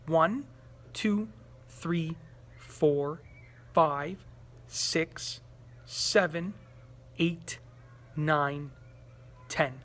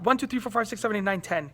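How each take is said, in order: First: The numbers are counted slowly, slowing further. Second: The numbers are counted quickly.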